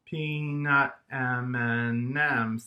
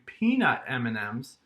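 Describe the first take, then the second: First: "peanut M and M's" in five slow, loud beats; syllable by syllable. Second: Said in the usual way. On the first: Shown as a demonstration. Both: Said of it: "that has five".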